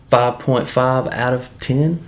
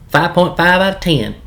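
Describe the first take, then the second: First: "five point five out of ten?" said slowly with a rising, unsure tune; questioning rating. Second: "Five point five out of ten." said higher and louder with a firm falling tune, "point" hit hard; firm rating. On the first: Weighing the series score for viewers, a slow questioning rise. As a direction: float the score like you're asking. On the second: Confirming the final score to viewers, a firm higher falling call. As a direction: announce the score and settle it. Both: Shown as a demonstration. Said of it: "giving the series rating".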